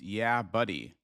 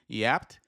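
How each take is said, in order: First: The name is said as two separate words. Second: The name is said as one clipped word. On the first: The speaker calls it right. "it's yeah, buddy" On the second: The speaker calls it wrong. "I was pronouncing the last one yapped. No"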